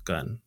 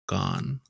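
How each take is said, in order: First: "Gun" with a barely opened mouth, softly; closed-mouth GUN. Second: "gone" for gun, with an open "ah" vowel; Japanese-accented gun. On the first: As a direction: keep the vowel in "Gun" short and tight. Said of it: "my mouth doesn't open at all". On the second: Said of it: "Whereas a Japanese person will often say". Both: Shown as a demonstration.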